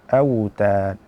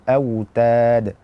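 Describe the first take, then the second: No difference in how they are said.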